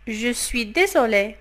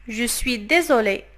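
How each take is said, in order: Both takes have the same delivery.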